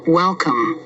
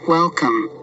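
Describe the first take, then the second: No difference in how they are said.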